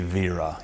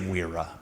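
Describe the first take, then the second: First: The name begins with a V sound. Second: The name begins with a W sound. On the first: This is the German way of saying it. "the German would be Vera, using sort of the, a V" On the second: This is the English way, avoiding a fake German sound. "we're going to say Wera"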